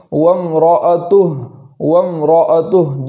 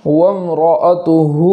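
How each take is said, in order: First: وَامْرَأَتُهُ ending on a silent ہ; stopped with sukun. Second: وَامْرَأَتُهُ with final hu stretched; connected reading; lengthened final vowel. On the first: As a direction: stop on the ہ. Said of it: "جزم کے ساتھ پڑھیں گے". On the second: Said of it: "اس طریقے سے". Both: Shown as a demonstration.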